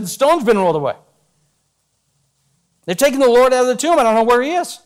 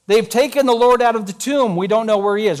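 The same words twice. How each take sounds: First: Urgent report. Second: Said in the usual way. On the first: Acted. Mary running to tell Peter and John, urgent. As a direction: rush the news out in a panic. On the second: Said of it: "What did she say?".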